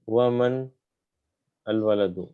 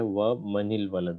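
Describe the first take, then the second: First: The words are kept apart with a stop. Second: The words are joined with an added i sound. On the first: The speaker calls it wrong. "ऐसे नहीं हो सकता ना" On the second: The speaker calls it right. "यहाँ पे है वह मनिल वलद"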